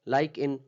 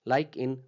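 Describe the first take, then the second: No difference in how they are said.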